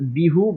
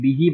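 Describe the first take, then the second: First: The word ends with an u vowel. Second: The word ends with an i vowel. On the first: The pronoun keeps its original vowel. The speaker calls it wrong. "अगर इसको हम हु ही पढ़ते तो बिहू बहुत मुश्किल होता" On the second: The vowel is changed for ease of saying. The speaker calls it right. "लेकिन बिही बहुत आसान है"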